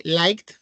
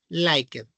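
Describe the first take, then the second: First: "liked" as one syllable ending in a t; contracted ending. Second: "liked" in two syllables, the -ed voiced; spelled-out ending. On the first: Teacher repeating the past form, "liked" in one syllable. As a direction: run "liked" together as "laikt". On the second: Teacher showing students the past form, "liked" with -ed sounded. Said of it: "Liked, moved". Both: Shown as a demonstration.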